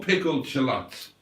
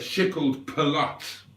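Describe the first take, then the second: First: The first sounds of both words are normal. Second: The first sounds of the two words are swapped. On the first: The speaker calls it right. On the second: The speaker calls it wrong.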